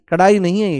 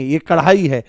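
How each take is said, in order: First: "कढ़ाई" with the middle ढ़ sound made wrongly, losing its breathy flap; mispronounced कढ़ाई. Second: "कढ़ाई" with an aspirated flap in the middle; corrected कढ़ाई. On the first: Teacher rejecting the faulty reading, mispronounced कढ़ाई. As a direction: deliberately misread "कढ़ाई" without the aspirated flap. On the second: Teacher giving the right reading, corrected कढ़ाई. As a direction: say "कढ़ाई" with a flicked, breathy ढ़. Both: Shown as a demonstration.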